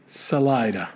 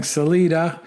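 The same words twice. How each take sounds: First: Salida said suh-LIE-duh; corrected pronunciation. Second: Salida said suh-LEE-duh; old mistaken pronunciation. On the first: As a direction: stress Salida on 'lie'. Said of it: "it's actually". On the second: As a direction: stress Salida on 'lee'. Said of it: "when I've been saying". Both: Shown as a demonstration.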